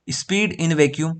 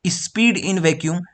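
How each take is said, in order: First: "speed in vacuum" stretched very slowly, a slight rise at the end; slow dictation. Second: "Speed in vacuum" said very slowly, each word apart; slow dictation. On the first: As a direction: say it slowly for notes. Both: Shown as a demonstration. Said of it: "तो आप लोग क्या बोलोगे?".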